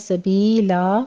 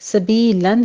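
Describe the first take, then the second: First: The word ends with a long vowel. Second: The word ends with an n sound. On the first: The reader stops on the word. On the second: The word is read connected, without stopping.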